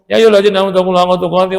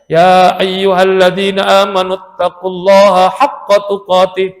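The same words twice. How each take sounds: First: Vowel lengthening and nasal sounds are left out. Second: Vowel lengthening and nasal sounds follow recitation rules. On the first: The speaker calls it wrong. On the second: The speaker calls it right.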